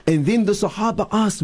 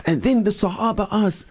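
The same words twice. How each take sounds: First: Said in the usual way. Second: Raised higher, heartfelt storytelling; earnest, moved retelling; with feeling. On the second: Shown as a demonstration. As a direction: say it with love and passion. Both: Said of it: "we say with, with feeling".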